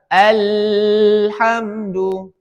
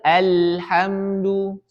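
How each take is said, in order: First: The l sound flows on far too long. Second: The l sound flows moderately into the next. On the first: The speaker calls it wrong. "Tidak boleh mengalirnya deras" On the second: The speaker calls it right. "Kita harus mengalirkannya. seperti itu. Sedang"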